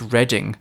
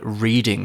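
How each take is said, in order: First: The name is said with the British pronunciation. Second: The name is said with a changed American pronunciation. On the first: This is how the town is named in the UK. "So over here, it's Reading" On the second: This is how Americans might have renamed it. "I wonder if Americans have called it Reading"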